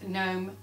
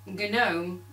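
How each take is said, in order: First: The word begins with an n sound. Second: The word begins with a g sound. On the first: "we all say it's gnome... it's a silent G" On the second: "according to Gnorm in the film, it is pronounced gnome"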